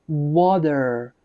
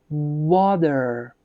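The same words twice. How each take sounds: Both takes have the same delivery.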